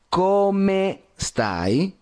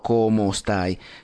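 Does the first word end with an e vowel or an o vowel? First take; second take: e vowel; o vowel. First: The first word ends with an e vowel. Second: The first word ends with an o vowel. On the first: The speaker calls it right. "se dice ciao, come, come stai" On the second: The speaker calls it wrong. "no como stai"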